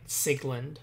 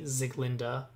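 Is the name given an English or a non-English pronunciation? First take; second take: English; non-English. First: The name is pronounced the English way. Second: The name is pronounced the non-English way. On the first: "a purely English pronunciation" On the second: "I'm pretty sure it's supposed to be Ziglinda"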